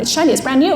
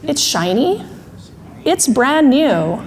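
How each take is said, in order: First: "shiny, brand new" rattled off in protest; quick, run-together insistence; mildly flustered arguing; emotional brain spinning. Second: Slow, separated echo of "shiny... brand new"; drawn-out, patient correction; thinking brain. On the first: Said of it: "emotional brain does this really fast spinning". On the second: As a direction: repeat it back deliberately, with long pauses. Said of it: "Thinking brain finally says". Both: Acted.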